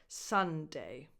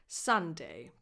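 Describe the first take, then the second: No difference in how they are said.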